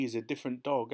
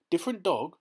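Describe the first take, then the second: First: Said in the usual way. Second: Jumps high and loud on Different dog?; startled cry. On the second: A narrator's reading. Feezy catching Claude's slip, a high loud startled cry. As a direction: pounce on Different dog? as if pricked. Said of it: "he cried".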